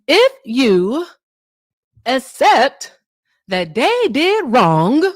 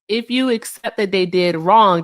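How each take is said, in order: First: It is said in a put-on preacher voice. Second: It is said in an ordinary conversational voice.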